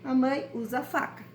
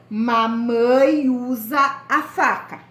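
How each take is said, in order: First: Said in the usual way. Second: Put-on slow, louder, each word set apart for the children; slow dictation. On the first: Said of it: "vocês vão escrever". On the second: Shown as a demonstration. Teacher dictating the example sentence to her pupils, slow and louder. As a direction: spell "mamãe usa a faca" out slowly, word by word. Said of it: "Uma frase pra faca".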